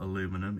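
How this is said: It is said the American way, with four syllables.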